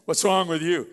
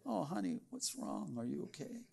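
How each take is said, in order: First: Loud, harsh what's wrong with you; irritated snap. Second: Much softer, tender concern; caring and gentle. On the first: Spouse coming home to a bad mood, snapping at them. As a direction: bark it out annoyed. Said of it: "it's the way you say it". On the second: Spouse comforting their partner at home, soft and tender. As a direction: ask gently like you truly care. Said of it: "words spoken with kindness". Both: Shown as a demonstration.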